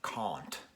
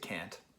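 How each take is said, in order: First: The word is said in a British accent. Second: The word is said in a general American accent. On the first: "he has a very noticeable British accent" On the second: "in America we'd say can't"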